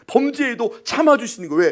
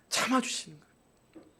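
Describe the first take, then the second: First: '참아주시는' punched, higher; emphatic. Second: '참아주시는' almost breathed, much softer and slow. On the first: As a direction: preach '참아주시는' with force. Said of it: "repeated phrase, strong take". ('참아주시는'을 힘 있게 강조) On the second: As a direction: let '참아주시는' fall gently and softly. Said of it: "repeated phrase, soft take". ('참아주시는'을 아주 부드럽고 느리게) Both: Acted.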